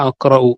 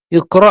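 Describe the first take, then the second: First: അഖ്റഉ said "aqra-u" with open a and final u; corrected form. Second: ഇഖ്റ said "iqra" with short i first, the mistaken reading; misread verb form. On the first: Teacher corrects the quiz word to students: അഖ്റഉ, plain tone. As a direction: give the corrected reading അഖ്റഉ clearly. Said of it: "ഇഖ്റ എന്നല്ല, അഖ്റഉ". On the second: Teacher misreads the quiz word as ഇഖ്റ, plain tone. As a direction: read out ഇഖ്റ as "iqra", then drop it. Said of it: "ഇഖ്റ എന്നല്ല". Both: Shown as a demonstration.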